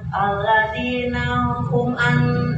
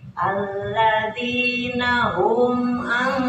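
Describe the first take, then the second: First: The m of hum is cut short before an. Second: The m of hum is held fully before an. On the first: The speaker calls it wrong. "hum an itu loncat" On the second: The speaker calls it right. "humnya itu sempurna"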